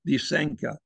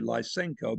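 First: The name is said the Russian or Ukrainian way. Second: The name is said the English-speaking way. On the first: "they pronounce it Lysenko" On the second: "Most people in the English-speaking world say Lysenko"

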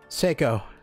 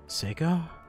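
First: The word is said firmly and demandingly. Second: The word is said softly, tentatively.

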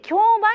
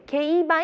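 First: The word is given its common everyday reading. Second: The word is given its legal-field reading. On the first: This is how it is usually read in general. "これ一般的に競売と読むことも多いですが" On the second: This is how it is read in the legal world. "法律の世界だと競売と読むことが多いです"

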